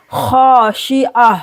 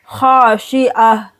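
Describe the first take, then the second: First: Khashia with thick kha held long; thick drawn kha in khashia; heavy kha. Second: Khashia with long heavy kha; slow recitation. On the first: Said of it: "खा को मोटा पढ़ेंगे". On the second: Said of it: "अलिफ के साथ मिलाकर दो second के लिए खींचेंगे". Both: Shown as a demonstration.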